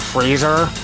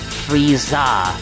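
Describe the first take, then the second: First: The name ends with an 'er' sound. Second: The name ends with an 'a' sound. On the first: The speaker calls it wrong. "My name isn't Freezer" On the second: The speaker calls it right. "It's Frieza"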